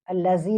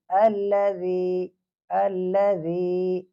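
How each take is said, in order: First: الذی said with a z sound, as the wrong form; teacher showing the error; wrong allazi. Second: Teacher modelling the right sound; correct alladhi. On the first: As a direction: say الذی with a z, as the mistake. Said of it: "زال نہیں پڑھنا ہے". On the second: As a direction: draw out الذی with a clear ذ. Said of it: "الذی نہیں پڑھنا ہے". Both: Shown as a demonstration.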